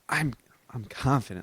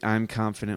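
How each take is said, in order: First: It is said with strong, confident feeling. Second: It is said flatly, without feeling.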